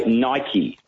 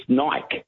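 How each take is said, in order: First: Nike in two syllables, NY-kee; pronounced Nike. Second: Nike as one syllable, rhymes with bike; pronounced Nike. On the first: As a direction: say Nike with an "ee" on the end. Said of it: "It's the pronunciation of a word". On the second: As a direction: say Nike with a silent final e. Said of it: "Everyone else says it's Nike". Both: Shown as a demonstration.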